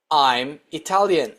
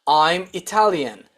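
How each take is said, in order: Both takes have the same delivery.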